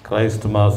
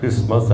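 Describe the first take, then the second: First: Said as two words, with the t sounded. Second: Said as one word, with the t silent. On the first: The speaker calls it wrong. "క్రైస్ట్ మాస్ అనకుండా" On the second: The speaker calls it right. "టీ silent ఉంటుంది కనుక క్రిస్మస్ అని పలుకుతారు"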